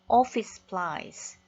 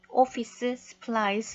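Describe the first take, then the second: First: The s sound at the join is said once. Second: The s sound at the join is said twice. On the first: The speaker calls it right. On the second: The speaker calls it wrong.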